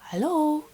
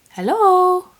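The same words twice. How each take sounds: First: High-pitched hello at near-normal volume; calling, less forceful. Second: Loud, high-pitched hello; calling out. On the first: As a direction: try for attention without shouting. Calling to the camera again. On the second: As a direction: call out sharply to get attention. Calling to a camera not focusing. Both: Real, not acted.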